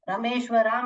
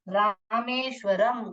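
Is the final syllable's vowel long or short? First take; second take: long; short. First: The final syllable has a long vowel. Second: The final syllable has a short vowel. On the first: The speaker calls it wrong. "रामेश्वराम ऐसे नहीं पढ़ने का" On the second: The speaker calls it right. "रामेश्वरम करके पढ़ने का"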